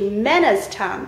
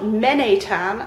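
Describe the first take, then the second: First: The name is said with an s sound. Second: The name is said with no s sound. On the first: The name is read as the Breton name it is. The speaker calls it right. "but actually Menestan, because it's not a French word at all, it's a Breton name" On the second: The name is read as if it were French. The speaker calls it wrong. "The pronunciation of this name is not Menetan"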